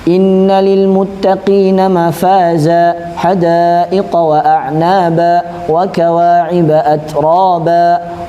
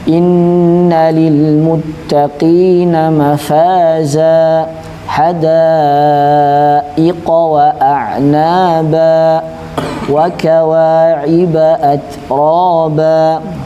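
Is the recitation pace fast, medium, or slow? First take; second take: fast; slow. First: It is recited at a fast pace. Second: It is recited at a very slow pace. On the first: "walaupun cepat" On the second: "tahqiq ... lambat banget"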